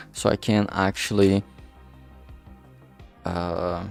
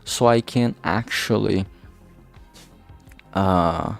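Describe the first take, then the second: No difference in how they are said.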